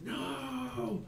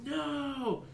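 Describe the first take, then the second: First: A sudden high-pitched "No!" from the giant creature; the monster shrieks its denial; high anguished cry. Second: The same high "No!", now a bit louder; the creature shrieks again, harder; louder high cry. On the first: Giant figure crying out as the gong is struck. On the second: Giant figure screaming at the second gong strike. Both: Acted. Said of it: "and the figure's like".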